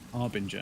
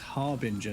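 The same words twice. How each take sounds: First: The word begins with a vowel sound. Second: The word begins with an h sound. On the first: The speaker calls it wrong. "not Harbinger" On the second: The speaker calls it right. "it's Harbinger"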